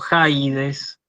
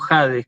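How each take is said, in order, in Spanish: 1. La primera vocal es un diptongo, como 'eye'. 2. La primera vocal es un 'ah' simple. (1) "no la pueden buscar como Jaides" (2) "la tienen que buscar como Jades, como si no estuviera esa iota"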